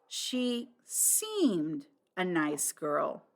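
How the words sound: The stress is on the word seemed.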